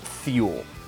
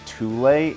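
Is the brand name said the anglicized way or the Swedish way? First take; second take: anglicized; Swedish. First: The name is said with an anglicized pronunciation. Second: The name is said with a Swedish pronunciation. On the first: The speaker calls it right. "It's pronounced" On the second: The speaker calls it wrong. "I rebuke the Swedish pronunciation"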